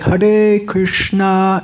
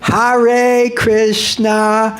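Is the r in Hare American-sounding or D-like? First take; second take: D-like; American-sounding. First: The r in Hare sounds close to a d. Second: The r in Hare is an American r. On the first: The speaker calls it right. "better pronounce it like a D" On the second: The speaker calls it wrong. "you sound like a New Yorker"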